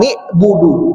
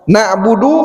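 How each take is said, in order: First: The first syllable has an 'i' vowel. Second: Both first syllables have an 'a' and 'u' vowel. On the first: The speaker calls it wrong. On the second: The speaker calls it right.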